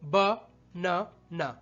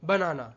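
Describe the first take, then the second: First: There are breaks between the three syllables. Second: The three syllables run together without breaks.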